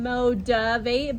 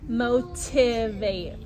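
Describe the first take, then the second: First: The word is said quickly with blurred sounds. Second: The word is said slowly with every sound clear. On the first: "It sounds like I'm saying motivate" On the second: "but it's actually motivate"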